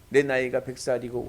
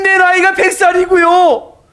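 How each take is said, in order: First: It sounds scornful and mocking, with a sneer. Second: It sounds amazed and joyfully astonished. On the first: The promise seems laughable and unbelievable. "마치 비웃는 것 같아" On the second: The promise is marvelled at in faith. "믿음의 감탄사"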